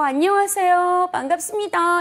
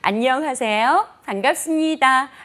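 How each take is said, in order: First: The endings are dragged out and raised, off-putting. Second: The sound is rounded and pleasant, likable.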